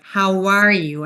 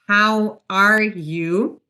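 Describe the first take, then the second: First: The words are joined with a gliding w sound. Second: The words are said separately, without a link. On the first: The speaker calls it right. "we use a W link here" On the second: The speaker calls it wrong. "Instead of how are you"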